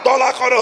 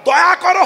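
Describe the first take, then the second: First: The phrase is slurred with an l sound. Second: The phrase is pronounced clearly with a y sound. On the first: An old person can no longer say it properly. "দলা করো হবে" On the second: This is how it should sound. "দয়া করো হবে না"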